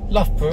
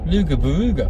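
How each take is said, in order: First: The name begins with a short luff sound. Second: The name begins with luga, spelled out sound by sound. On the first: This is how locals say it. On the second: This is how Australians say it.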